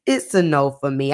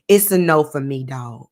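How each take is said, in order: First: Low, lazy judge's verdict; Randy Jackson voice. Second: Randy Jackson voice. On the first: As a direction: hand down the no like a TV judge. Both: Shown as a demonstration. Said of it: "In my Randy from American Idol voice".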